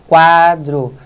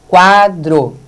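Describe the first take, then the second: No difference in how they are said.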